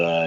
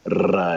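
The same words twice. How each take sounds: First: "R" as a throaty uvular French sound. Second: "R" as a rolled tongue-tip trill; Spanish R. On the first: Teacher previewing his video lectures, "R" as a French uvular sound. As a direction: make the "R" at the back of the throat, French style. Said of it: "this is how you pronounce the R in French". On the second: Teacher previewing his video lectures, "R" as a Spanish trill. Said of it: "this is how you pronounce the R in Spanish". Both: Shown as a demonstration.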